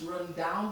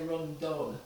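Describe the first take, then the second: First: The second word has an 'ow' vowel, like 'town'. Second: The second word has an 'uh' vowel, like 'fun'.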